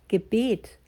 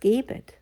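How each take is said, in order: First: The stress is on the second syllable. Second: The stress is on the first syllable. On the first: A prayer. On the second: Give.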